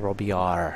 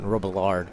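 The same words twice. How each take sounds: First: The name is said with French pronunciation. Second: The name is said with English pronunciation. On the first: The speaker calls it right. "It's Robillard" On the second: The speaker calls it wrong. "guess it's not Robillard. I guess I'm saying it very ... Anglaise"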